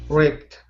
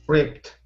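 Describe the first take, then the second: The two takes are said the same way.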